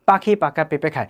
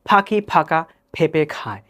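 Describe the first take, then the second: First: The p sounds are said without a puff of air. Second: The p sounds are said with a puff of air. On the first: "আমরা যদি বাংলায় বলি" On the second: "আর এটাকেই যদি আমি ইংলিশে বলি"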